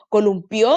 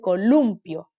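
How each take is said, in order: First: The stress is on the last syllable. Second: The stress is on the second-to-last syllable. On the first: It is the verb form meaning someone swung. The speaker calls it wrong. "Si dijera columpió, tendría que tener un tilde" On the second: It is the noun meaning a swing. The speaker calls it right. "Penúltima sílaba"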